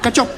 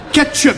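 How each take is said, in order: First: "Ketchup" as "katchop" in a mock Chinese accent; quick "katchop", imitating a Chinese accent. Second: "Ketchup" said clearly with a higher "ket"; insistent correction. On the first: Chinese restaurant owner repeats the word, mock Chinese accent. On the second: Acted. Customer corrects the restaurant owner, insistent clear "Ketchup". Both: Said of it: "Ging ik naar de Chinees".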